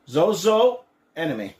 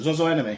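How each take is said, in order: First: The name is said slowly and fully. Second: The name is said quickly, run together.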